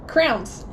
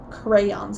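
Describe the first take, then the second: First: The word is squeezed into one syllable, like 'crowns'. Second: The word has two syllables, 'cray-ons'. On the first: The speaker calls it wrong. "Crowns is how I pronounce it" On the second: The speaker calls it right. "Crayons, I think, is the correct way"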